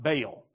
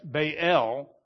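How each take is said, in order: First: The two vowels merge into a single sound. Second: The two vowels are said as separate sounds. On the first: The speaker calls it wrong. "not Baal, like most of us say" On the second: The speaker calls it right. "You got to say them side by side. That's why it's Baal"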